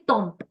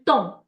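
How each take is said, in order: First: The final consonant is sounded. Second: The final consonant is silent. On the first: The speaker calls it wrong. "I don't say tomp" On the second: The speaker calls it right. "which is tom"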